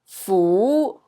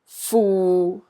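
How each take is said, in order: First: The syllable is said in Cantonese tone two. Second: The syllable is said in Cantonese tone six. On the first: "B is tone two" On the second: "A is tone six"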